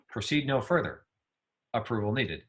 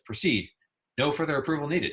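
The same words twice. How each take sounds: First: The pause comes after the word further. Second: The pause comes after the word proceed.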